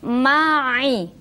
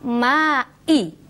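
First: The middle sound is squeezed deep in the throat. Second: The middle sound is a plain glottal catch. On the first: The speaker calls it right. "Jadi kalau di kasroh dia berbunyi ai" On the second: The speaker calls it wrong.

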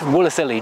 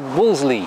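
First: The name is sounded out as it is spelled. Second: The name is said in a shortened form. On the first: The speaker calls it wrong. "you don't pronounce it Wolseley" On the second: The speaker calls it right. "just say Wolseley"

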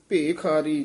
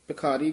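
First: The first vowel is a long 'e'. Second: The first vowel is a short 'i'. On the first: The speaker calls it right. "ਲਾਂ ਜਿਹੜੀ ਹੈ ਦੀਰਘ ਜੀ ਲੰਮੀ ਲੈ ਕੇ ਉਚਾਰਨ ਕਰਨਾ" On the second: The speaker calls it wrong. "ਭਿਖਾਰੀ ਕਵਾਂਗੇ ਤਾਂ ਸਿਆਰੀ ਲੱਗ ਜਾਏਗੀ"

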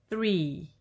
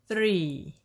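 The two takes are said the same way.

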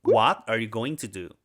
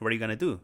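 First: Going to is said in full, more slowly. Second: Going to is reduced to gonna, said quickly.

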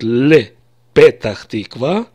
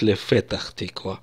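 First: It is said the everyday way, with p. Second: It is said the classical way, with f. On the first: This is how people normally say it. "все скажут" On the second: This follows formal classical rules few people use. "вряд ли кто-то скажет"

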